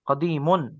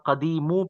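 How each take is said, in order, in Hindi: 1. शब्द "n" ध्वनि से खत्म होता है। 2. शब्द बिना "n" ध्वनि के खत्म होता है।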